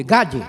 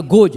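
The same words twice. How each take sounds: First: Gad said with an open a, as in American English; right American pronunciation. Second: God said with a round open o, as Brazilians say it; God the wrong way, like 'gód'; God with the o of Portuguese 'pó'; wrong pronunciation. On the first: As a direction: Gad like 'gád', the correct way. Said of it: "não é God, é Gad". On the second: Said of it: "errou, não é God". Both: Shown as a demonstration.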